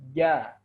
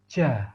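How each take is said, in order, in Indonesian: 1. Huruf j terdengar jelas, tanpa napas yang mengalir. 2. Huruf j diucapkan dengan napas yang mengalir keluar. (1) "tidak boleh ada nafas yang mengalir" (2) "ada nafas yang mengalir. Seperti ini contohnya"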